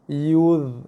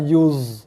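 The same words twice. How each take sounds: First: The consonant is a heavy, emphatic dh sound. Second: The consonant is a light, plain z sound. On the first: The speaker calls it right. "jaga ni huruf dha. Bukannya huruf za" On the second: The speaker calls it wrong. "Bukan yuz. ... Itu bacaan yang salah"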